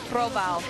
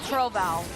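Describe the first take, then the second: Both takes have the same delivery.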